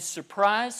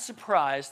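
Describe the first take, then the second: First: "surprise" rising, raised and bright; mock surprise. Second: "surprise" lower, quieter, falling flat; dry repeat. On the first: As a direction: sell "surprise" like a little reveal. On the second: Acted. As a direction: repeat "surprise" low and knowing, almost to yourself. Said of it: "and surprise".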